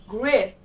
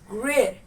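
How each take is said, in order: No difference in how they are said.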